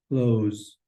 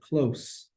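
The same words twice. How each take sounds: First: The word ends with a buzzing Z sound. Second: The word ends with a hissing S sound. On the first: It means to shut something. "It has a Z, Z, Z zeta sound" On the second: It means near in distance. "That's a straight up S sound at the end of the word"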